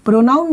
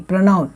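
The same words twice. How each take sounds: First: प्रोनाउन said with a full clear o, pro-noun; the mistaken way, open o in प्रोनाउन; wrong pronunciation. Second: प्रोनाउन said with a short neutral first vowel, pruh-noun; the right way, reduced vowel in प्रोनाउन; correct pronunciation. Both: Shown as a demonstration. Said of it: "प्रोनाउन नहीं".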